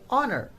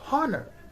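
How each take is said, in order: First: The word begins directly with a vowel sound. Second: The word begins with an audible H sound. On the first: The speaker calls it right. "we don't pronounce H, we say honor" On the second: The speaker calls it wrong. "not honor"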